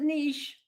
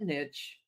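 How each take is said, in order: First: The vowel is long, ending in a sh sound. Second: The vowel is short, ending in a ch sound. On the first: "niche like quiche" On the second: "niche like itch"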